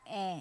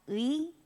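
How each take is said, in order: First: The vowel sounds like a plain e. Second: The vowel glides from u to i. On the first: "kalau kita baca cepat ... kedengarannya e" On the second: "ini ui kan"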